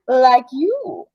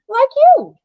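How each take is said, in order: First: It is said in a creepy, unsettling way. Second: It is said in a plain, non-creepy way. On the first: The speaker calls it wrong. "Maybe I read it creepy" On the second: The speaker calls it right. "I'll read it different"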